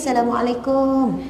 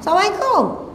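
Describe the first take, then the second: First: It is said softly and sweetly. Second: It is said harshly, in a high angry voice.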